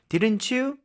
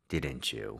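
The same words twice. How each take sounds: First: The voice rises at the end. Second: The voice falls at the end.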